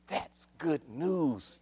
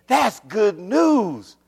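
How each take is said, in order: First: Hushed, stretched-out delivery; quiet savoring. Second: Drawn-out proclamation, pitch swooping high; stretched, ringing announcement; rising exultation. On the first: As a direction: draw it out gently. First quiet take before exclamation. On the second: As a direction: proclaim it slowly and fully. Repeats it louder to congregation. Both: Real, not acted.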